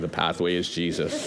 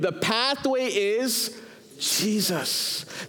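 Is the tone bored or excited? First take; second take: bored; excited. First: It is said in a flat, bored tone. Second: It is said with conviction and excitement.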